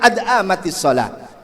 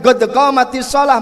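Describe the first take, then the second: First: The q sounds are replaced by glottal stops. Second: The q sounds are said as deep q sounds.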